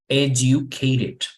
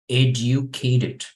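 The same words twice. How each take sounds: No difference in how they are said.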